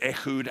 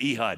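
First: The name is pronounced in a Hebrew way. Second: The name is pronounced in an English way. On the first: "that's the way you pronounce that in Hebrew" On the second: "I would read it Ehud"

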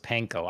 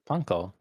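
First: It is said with an English-style pronunciation. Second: It is said with a Japanese-style pronunciation. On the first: This is the common everyday way of saying it. "Everyone says panko" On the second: This is the original way of saying it. "but it would be panko"

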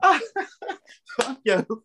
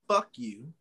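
First: It is said playfully, with a laugh. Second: It is said as a real, hostile insult.

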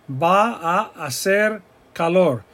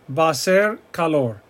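First: The words are stretched out and said separately. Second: The words run together into one smooth phrase. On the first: The speaker calls it wrong. "we stretch things out to make it clear to you. ... But it's not pronounced like that" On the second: The speaker calls it right. "It's va a ser calor"

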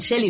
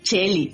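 First: The name begins with a soft sh sound. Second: The name begins with a Venezuelan ch sound.

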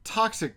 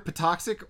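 First: The word begins without any P sound. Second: The word begins with an audible P sound. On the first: "or it's toxic because they're letting the P be silent" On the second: "It's either Patoxic"

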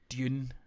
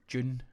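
First: It is said with a J-like start. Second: The same.

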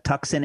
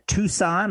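First: Tucson is pronounced the East Coast way. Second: Tucson is pronounced the usual local way.

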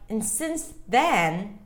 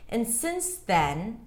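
First: Then is stressed and higher in pitch. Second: Since is stressed; then is lower. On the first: The speaker calls it wrong. "That doesn't sound like English so much" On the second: The speaker calls it right. "the since is more important"

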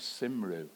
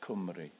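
First: The word begins with an S sound. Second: The word begins with a K sound. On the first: "I pronounced it up to that point as Simru" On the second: "the Welsh word for Wales is Cymru"

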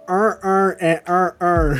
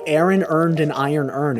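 First: It is said in a Baltimore accent. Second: It is said in a general accent.

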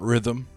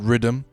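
First: The word is said in a standard accent. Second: The word is said in a Jamaican accent. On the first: "Not rhythm" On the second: "I said rhythm. ... Because I'm Jamaican"

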